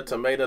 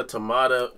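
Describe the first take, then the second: First: "tomato" with the middle vowel as in "day"; long-a pronunciation. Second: "tomato" with the middle vowel as in "father"; broad-a pronunciation. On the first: Host likens the debate to tomato, said with "ay". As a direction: say "tomato" as tuh-MAY-toh. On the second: Host likens the debate to tomato, said with "ah". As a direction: say "tomato" as tuh-MAH-toh. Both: Shown as a demonstration. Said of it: "I guess it depends on accents".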